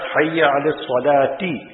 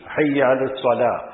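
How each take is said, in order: First: The last word ends with an added vowel syllable. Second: The last word stops short without a final vowel. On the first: The speaker calls it wrong. "And not" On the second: The speaker calls it right. "we make it a jazm"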